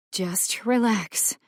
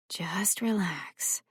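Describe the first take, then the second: First: Slow soothing words; calm him down gently. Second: Slow soft whisper; quieter. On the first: A narrator's reading. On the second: Acted. Nurse lulling the sedated boy, slow whisper. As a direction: whisper it to lull him. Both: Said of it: "her voice quieter now".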